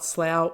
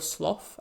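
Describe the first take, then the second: First: The word does not rhyme with cough. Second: The word rhymes with cough.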